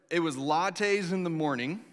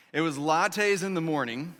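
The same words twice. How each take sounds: The two takes are said the same way.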